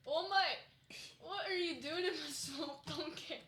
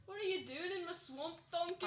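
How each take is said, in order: First: Loud, high, slow Scottish ogre; hammed-up Scottish accent, drawn out. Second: Put-on higher ogre voice with Scottish accent; Shrek. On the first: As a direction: put on a cartoonish Scottish brogue. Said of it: "I've developed a Scottish accent". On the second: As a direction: bellow it like a Scottish cartoon ogre. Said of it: "I also do the Shrek".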